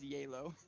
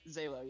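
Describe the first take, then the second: First: The name begins with a Y sound. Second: The name begins with a Z sound.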